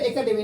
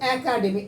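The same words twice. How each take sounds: First: The first vowel is a plain 'e' sound. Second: The first vowel is an open 'a' sound. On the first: The speaker calls it wrong. "আসলে শব্দটা একাডেমি না" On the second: The speaker calls it right. "শব্দ হচ্ছে একাডেমি"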